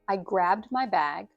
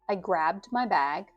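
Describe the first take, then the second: The two takes are said the same way.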